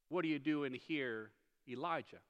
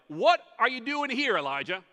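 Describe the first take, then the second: First: It is said in a gentle, caring tone. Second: It is said in a rebuking, scolding tone.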